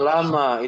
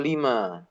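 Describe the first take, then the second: First: The first vowel sounds like 'a'. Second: The first vowel sounds like 'i'. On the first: The speaker calls it wrong. "Bukan lama" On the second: The speaker calls it right. "itu lima"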